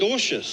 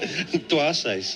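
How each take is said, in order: First: The name is said the Australian way. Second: The name is said the South African way. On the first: "it's the W silent, isn't it?" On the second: "how would you pronounce Dwarshuis' name if we were in South Africa?"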